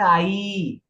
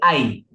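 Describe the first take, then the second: First: The final vowel is long and drawn out. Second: The final vowel is short. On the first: The speaker calls it wrong. "पर हम कैसे बोलते थे आई" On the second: The speaker calls it right. "हमें बोलना चाहिए आई"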